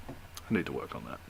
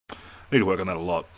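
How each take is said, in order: First: Much lower and softer, mumbled under breath; muttered aside. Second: Fast, offhand self-remark; quick plain aside. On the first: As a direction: mutter it to yourself. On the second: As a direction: rush it out casually. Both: Real, not acted.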